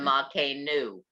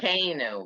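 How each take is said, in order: First: The stress is on the last syllable. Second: The stress is on the middle syllable. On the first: The speaker calls it wrong. "rather than" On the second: The speaker calls it right. "the accent is where the Metek is"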